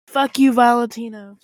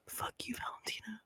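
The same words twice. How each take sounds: First: It is said at a louder volume. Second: It is said very quietly, almost whispered.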